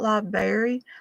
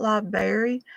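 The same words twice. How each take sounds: First: The word is said with a 'berry' sound. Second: The same.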